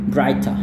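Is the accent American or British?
British. It is said in a British accent, without r. "gaya Inggris atau gaya Australia... R-nya tidak dilafalkannya"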